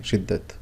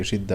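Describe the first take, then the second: First: "شدت" ending in an audible t; final ta pronounced. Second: "شدہ" ending in an open -a, no t; final ta silent. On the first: Teacher showing the Urdu form to learners, final t pronounced in "شدت". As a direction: say "شدت" as shiddat, sounding the final t. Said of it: "تا پڑھی جاتی ہے". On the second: Teacher showing Arabic reading to learners, final ta silent in "شدہ". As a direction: say "شدہ" as shidda, leaving the final ta unpronounced. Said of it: "وہ پڑھی نہیں". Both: Shown as a demonstration.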